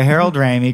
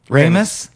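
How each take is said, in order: First: The name ends in an ee sound. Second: The name ends in an s sound. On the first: The speaker calls it wrong. "I did think it's pronounced Ramey" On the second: The speaker calls it right. "it's like, yeah, Ramis, like it's spelled"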